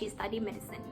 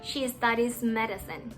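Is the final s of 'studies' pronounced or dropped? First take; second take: dropped; pronounced. First: The final s sound is left out. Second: The final s links smoothly into the next word. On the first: The speaker calls it wrong. "มันจะกลายเป็น ... ซึ่งมันผิดแกรมม่าอยู่แล้วตั้งแต่แรกเลย" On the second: The speaker calls it right. "ถ้าเราไม่อ่านออกเสียงอย่างเงี้ยมันก็จะไม่ค่อยสมูท"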